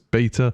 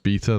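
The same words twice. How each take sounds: First: It is said with an American pronunciation. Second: It is said with a British pronunciation. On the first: "the American pronunciation is beta" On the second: "that's the British pronunciation"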